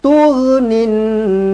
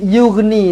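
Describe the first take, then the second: First: The word begins with a t sound. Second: The word begins with a y sound. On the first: The speaker calls it right. "huruf ta" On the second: The speaker calls it wrong. "Tiba-tiba jadi yughni, salah"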